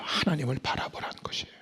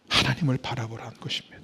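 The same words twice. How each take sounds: First: "하나님을 바라보라는" whispered, soft and quick; the point whispered to the listeners. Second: Said in the usual way. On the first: Shown as a demonstration. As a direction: breathe the words "하나님을 바라보라는 것이에요" as a whisper. Whispered restatement.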